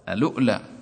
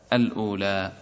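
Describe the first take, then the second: First: A glottal stop falls in the middle of the word. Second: The middle vowel flows on with no glottal stop. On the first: The word is begun with the vowel transfer. "تهمز واوه فتقرأ ألؤلى" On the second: The word is begun in its original form. "فهل تهمز واوه؟ لا، تقول الأولى"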